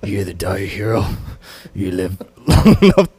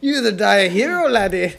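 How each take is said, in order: First: Tired low voice. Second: Put-on Scottish accent. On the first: Retold or imitated. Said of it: "I gotta do your tired voice". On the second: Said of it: "you sound like Gerard Butler".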